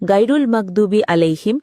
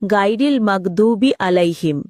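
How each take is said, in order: First: The first word ends with an 'ul' sound. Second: The first word ends with an 'il' sound. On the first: The speaker calls it wrong. "তাদের উচ্চারণ সম্পূর্ণ ভুল" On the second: The speaker calls it right. "আসল উচ্চারণ হল"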